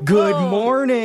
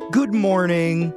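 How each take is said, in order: First: The greeting is said loudly and with emphasis. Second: The greeting is said at a normal level. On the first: The room is pushed to answer with more energy. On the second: A plain first greeting to the room.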